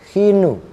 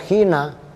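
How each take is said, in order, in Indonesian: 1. Kata ini berakhir dengan vokal 'u' pendek. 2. Kata ini berakhir dengan vokal 'a' pendek. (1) "tapi khi, khinu" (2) "ini bukan khina"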